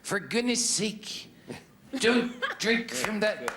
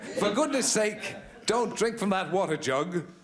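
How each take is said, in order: First: It is said in a put-on character voice. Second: It is said in his normal speaking voice.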